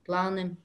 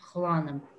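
First: The word begins with a hard G sound. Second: The word begins with a throaty friction sound.

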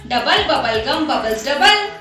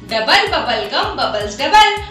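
No difference in how they are said.

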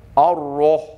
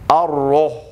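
The two takes are said the same way.

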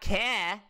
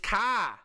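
First: The vowel sounds like 'care'. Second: The vowel sounds like 'car'. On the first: The speaker calls it wrong. "not care" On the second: The speaker calls it right. "It's car"

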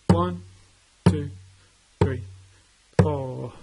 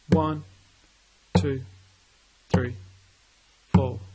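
First: The count is said at a faster pace. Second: The count is said at a slower pace.

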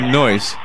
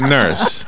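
First: The word is said in a Brooklyn accent. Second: The word is said in a standard accent. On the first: The nurse is a man. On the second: The nurse is a woman.

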